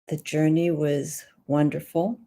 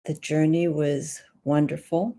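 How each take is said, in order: First: It sounds uncertain, like a question. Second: It sounds uncertain, like a question.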